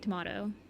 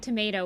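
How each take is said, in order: First: It is said with a European pronunciation. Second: It is said with an American pronunciation. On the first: "when you're in Europe, you say" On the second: "when you're in America"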